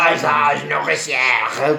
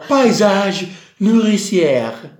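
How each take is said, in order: First: It is said in an even scarier way. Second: It is said in a pleasant, pretty way. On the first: "Questo fa più paura invece" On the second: "Era più bello così"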